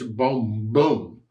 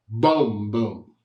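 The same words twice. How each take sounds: First: The accent falls on the second boom. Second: The accent falls on the first boom. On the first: The strong accent lands on the final note. The speaker calls it right. "I want it to finish boom, boom" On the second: The strong accent lands on the next-to-last note. The speaker calls it wrong. "not boom, boom"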